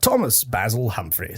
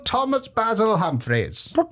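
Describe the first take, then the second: First: The name is said in a plain, ordinary way. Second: The name is announced in a grand, regal way.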